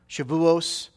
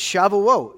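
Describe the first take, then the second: First: The word ends with an s sound. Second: The word ends with a t sound.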